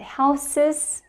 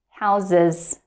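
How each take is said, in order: First: The consonant before the ending is an s sound. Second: The consonant before the ending is a z sound. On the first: The speaker calls it wrong. "It's not" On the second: The speaker calls it right.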